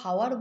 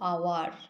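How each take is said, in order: First: The word begins with an h sound. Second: The word begins with a vowel sound. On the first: The speaker calls it wrong. "আমরা হাওয়ার বলতে পারি না" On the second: The speaker calls it right. "আমরা এটাকে বলি আওয়ার"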